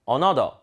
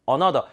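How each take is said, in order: Both takes have the same delivery.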